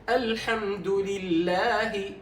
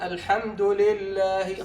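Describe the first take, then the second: First: The kasra vowel in 'lillah' is given full value. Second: The kasra vowel in 'lillah' is clipped short. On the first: The vowel is given its due. The speaker calls it right. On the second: The vowel is being cheated of its due. The speaker calls it wrong.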